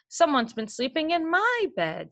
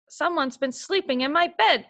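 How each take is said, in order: First: It is sighed in Mama Bear's voice. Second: It is growled in Papa Bear's gruff voice.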